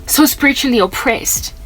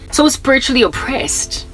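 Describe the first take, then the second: No difference in how they are said.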